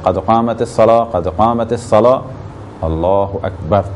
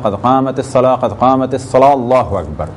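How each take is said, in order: First: A short pause comes before Allahu Akbar. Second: Allahu Akbar follows immediately with no pause. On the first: The speaker calls it right. "एक मुख्तसर से फासले के बाद और वक्फे के बाद कहा जाए" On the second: The speaker calls it wrong. "अकामत के फ़ौरन बाद"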